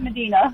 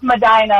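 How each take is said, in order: First: Medina said as muh-DEE-nuh; usual pronunciation. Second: Medina said as muh-DYE-nuh; local pronunciation. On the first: Caller tells how everyone else says it, Medina as muh-DEE-nuh. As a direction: rhyme the middle of Medina with "dee". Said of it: "Everyone else calls it". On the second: Caller corrects the host, Medina as muh-DYE-nuh. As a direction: rhyme the middle of Medina with "dye". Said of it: "it's pronounced". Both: Shown as a demonstration.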